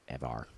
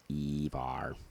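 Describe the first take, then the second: First: Ever stretched and low; drawn-out ever. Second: Evar said as ee-var, stretched; jokey internet spelling said aloud; Evar with long ee. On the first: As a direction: say Ever slow and dragged. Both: Shown as a demonstration.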